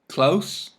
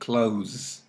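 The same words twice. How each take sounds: First: The word ends with a hissing s sound. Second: The word ends with a buzzing z sound. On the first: It is the adjective. "S with the noun or adjective" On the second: It is the verb. "Z with the verb"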